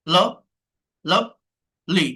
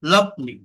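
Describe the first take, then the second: First: lovely broken slowly in two; split into syllables. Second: Said in the usual way. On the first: Shown as a demonstration. Teacher asking how many syllables, lovely split apart. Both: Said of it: "কয়টা আছে".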